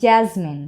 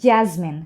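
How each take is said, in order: Both takes have the same delivery.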